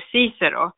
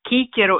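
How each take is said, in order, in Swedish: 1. Namnet börjar med ett mjukt s-ljud. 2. Namnet börjar med ett hårt k-ljud. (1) "istället för Cicero" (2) "När vi läser latin på A-kursen, vi säger Cicero"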